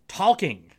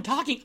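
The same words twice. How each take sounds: First: "Talking" with the L clearly sounded, tawl-king. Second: Said in the usual way. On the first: Retold or imitated. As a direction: imitate him saying the L in "Talking". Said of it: "He says the L in talking". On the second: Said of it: "He says the L in".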